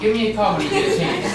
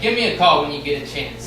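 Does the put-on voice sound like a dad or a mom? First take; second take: mom; dad. First: It is said in a put-on mom voice. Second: It is said in a put-on dad voice. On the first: A mother is leaving a voicemail. "here's my impression of a Democrat" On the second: A father is leaving a voicemail. "here's my impression of a Republican"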